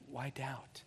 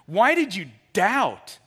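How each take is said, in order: First: It sounds gentle and compassionate. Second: It sounds harsh and condemning.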